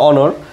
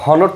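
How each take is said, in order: First: The word starts with a vowel sound. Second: The word starts with an h sound. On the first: The speaker calls it right. "এটা উচ্চারণটা হবে অনর" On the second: The speaker calls it wrong. "হনর তো না"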